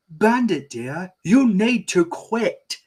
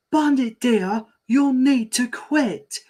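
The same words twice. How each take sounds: First: High, slow scolding mom. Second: Much higher, slow scolding mum; higher mom voice. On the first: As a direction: scold her husband, drawn out. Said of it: "first take of Chili's line". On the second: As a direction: push the mum voice up high. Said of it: "retake, higher". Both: Acted.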